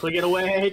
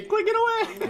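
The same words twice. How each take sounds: First: Said in the usual way. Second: Squeaky high shout; mocking an easy win with a squeal; mock shriek. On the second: Real, not acted. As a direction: squeal it like a cartoon. Mocking a teammate's strategy.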